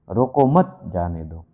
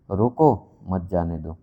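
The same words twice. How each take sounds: First: रोको मत together, then lower जाने दो; pause after मत. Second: रोको on its own, then lower मत जाने दो; pause after रोको. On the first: Teacher demonstrating that a pause changes meaning, pause after मत. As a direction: separate जाने दो from रोको मत with a clear stop. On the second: Teacher demonstrating that a pause changes meaning, pause after रोको. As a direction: separate रोको from मत जाने दो with a clear stop. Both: Shown as a demonstration. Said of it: "रुकने के कारण अर्थ बदल जाता है".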